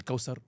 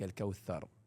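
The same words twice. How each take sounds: First: The middle consonant is not a 'th' sound. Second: The middle consonant is a 'th' sound. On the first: The speaker calls it wrong. "مش الكوثر" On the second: The speaker calls it right. "لمّا تقرأ قرآن وتقرأ الثاء صح"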